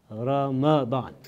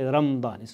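First: A short 'a' vowel follows the m. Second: No short 'a' vowel follows the m. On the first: The speaker calls it right. "The correct pronunciation of this month is Ramadan. ... It's with the fatha of the meme" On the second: The speaker calls it wrong. "Some people say Ramadan"

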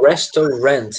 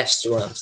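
First: The stress falls on a later syllable. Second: The stress falls on the first syllable. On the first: The speaker calls it wrong. "Tem muita gente que tende a falar restaurant, mas não" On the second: The speaker calls it right. "é restaurant, tá bem? ... A sílaba tônica tá lá na primeira"

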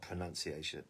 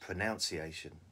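First: The second syllable sounds like 'nun'. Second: The second syllable sounds like 'nounce'. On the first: The word keeps its usual form. The speaker calls it right. "Not pronunciation" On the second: The word follows the verb it comes from. The speaker calls it wrong. "which I think should be pronounced. Pronunciation would make sense, wouldn't it?"

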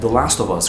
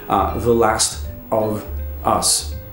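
First: The words run together like one word. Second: The words are said separately, one by one. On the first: The speaker calls it right. "como se fosse uma palavra só" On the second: The speaker calls it wrong. "Então você não fala The Last of Us"

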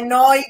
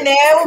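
First: The word is pronounced 'noy'. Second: The word is pronounced 'neh-o'. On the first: The speaker calls it right. "ma è noi grafic" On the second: The speaker calls it wrong. "non è neo"

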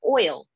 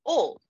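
First: It is said in a West Coast accent. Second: It is said in a Southern accent. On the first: "I speak with a West Coast accent. ... And we say the word oil" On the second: "He is from Tennessee. ... He says oil"

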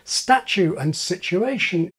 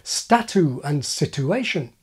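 First: The t sounds like a ch sound. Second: The t is followed by a y sound. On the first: "why most native speakers say" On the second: "instead of"

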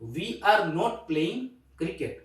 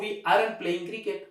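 First: "Are not" is said as two full words. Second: "Are not" is contracted into one quick word.

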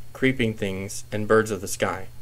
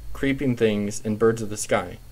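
The two takes are said the same way.

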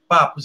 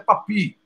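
First: The name is said with Portuguese vowel sounds. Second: The name is said with a rounded French vowel. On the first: "Aqui em português escreve Papus" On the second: "Em francês é Papi, com aquele oui-oui"

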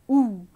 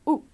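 First: The vowel sound is long. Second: The vowel sound is short. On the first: "long sound of O. O-O together" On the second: "O-O also has a short sound"

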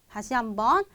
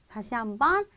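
No difference in how they are said.

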